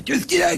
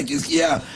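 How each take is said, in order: First: Very high worried question; alarmed father. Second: High, calmer repeat; father asking. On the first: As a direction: burst in asking, very high. Father arrives, asks. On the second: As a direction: ask again, a bit calmer. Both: Acted.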